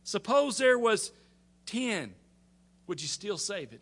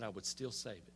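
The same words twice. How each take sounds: First: High, halting bargain, easing down at the end; Abraham's last plea. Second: Low, very soft assurance; reply quietly and low; patient Lord answering. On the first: Abraham making his final offer to the Lord, high pleading. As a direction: pause before the number, then ask gently. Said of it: "irritating little friends". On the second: The Lord answering Abraham's final plea, quiet and steady. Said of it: "And he said". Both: Retold or imitated.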